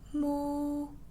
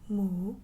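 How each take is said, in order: First: It is said in the first tone. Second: It is said in the second tone. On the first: "That's number one" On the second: "That's number two"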